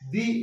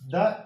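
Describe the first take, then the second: First: The vowel sounds like 'ee'. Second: The vowel sounds like 'uh'. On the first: The speaker calls it right. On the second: The speaker calls it wrong.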